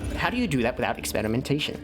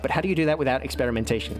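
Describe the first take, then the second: First: It is read in a put-on character voice. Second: It is read in the speaker's natural voice.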